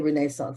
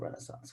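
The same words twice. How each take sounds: First: The word is said with a British pronunciation. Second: The word is said with an American pronunciation. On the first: "British affectations. Like I say" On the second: "instead of"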